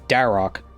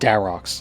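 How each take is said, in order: First: The name ends without an s sound. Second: The name ends with an added s sound. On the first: The speaker calls it right. "His name is Darok" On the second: The speaker calls it wrong. "refer to the Barrows brothers as their uh, possessive name"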